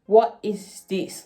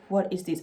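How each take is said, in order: First: Slow, louder mock disbelief; drawn-out confused question; stunned, slowed-down what is this; retold bewilderment. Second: Said in the usual way. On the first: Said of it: "and I was just like". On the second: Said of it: "it was".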